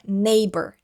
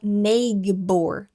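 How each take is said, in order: First: The gh in the middle is silent. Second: The gh in the middle is sounded aloud. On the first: The speaker calls it right. "esse G H é silencioso, ele não é pronunciado" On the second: The speaker calls it wrong. "a gente não fala neighbor"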